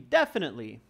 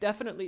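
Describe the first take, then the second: First: It sounds pleasant and confident. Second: It sounds nervous and unsure. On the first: The speaker calls it right. "Carry it with a nice voice" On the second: The speaker calls it wrong. "Don't don't sound nervous. Like don't be like"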